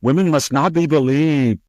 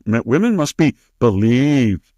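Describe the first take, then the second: First: Higher put-on voice, sarcastic; mock Senator Hirono. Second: A put-on voice that lightly parodies the senator; mocking Senator Hirono. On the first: Host throws the senator's slogan back at her, higher mocking voice. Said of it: "you probably said". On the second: Host mimics Senator Hirono to mock her slogan, lightly parodic voice. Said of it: "Senator Hirono".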